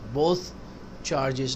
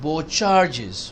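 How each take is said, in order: First: The th sound at the end of both is pronounced. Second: The th sound at the end of both is dropped. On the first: The speaker calls it wrong. "नहीं" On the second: The speaker calls it right. "बो काफी है"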